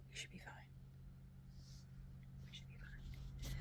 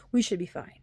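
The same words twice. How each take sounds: First: Whispered self-reassurance. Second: Said in the usual way. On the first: Shown as a demonstration. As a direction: reassure yourself in a hush.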